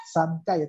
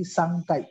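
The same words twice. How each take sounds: First: "Sankai" with a plain n before k; wrong reading shown. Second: "Sangkai" with ng before the k; corrected reading. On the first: Teacher shows what to avoid, "Sankai" with clear n. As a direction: keep the tongue-tip n in "Sankai". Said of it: "bukan Sankai". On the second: Teacher corrects sankai, "Sangkai" with ng before k. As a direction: say "Sangkai" as sang-kai. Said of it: "tapi Sangkai". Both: Shown as a demonstration.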